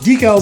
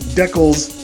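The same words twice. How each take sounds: First: It uses the usual US and UK pronunciation. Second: It uses the usual Canadian pronunciation. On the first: "how it's pronounced both in the U S and the U K" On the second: "typically a Canadian pronunciation"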